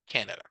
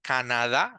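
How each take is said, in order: First: It is pronounced the English way. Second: It is pronounced the Spanish way. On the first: The speaker calls it right. "In English, is Canada" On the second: The speaker calls it wrong. "like we do it in Spanish"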